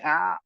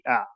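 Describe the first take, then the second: First: The sound is forced hard from the throat. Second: The sound is brief with moderate force. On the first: The speaker calls it wrong. "that's too strong" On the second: The speaker calls it right. "It has to be ah"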